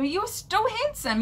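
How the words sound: It sounds like a friendly, innocent compliment.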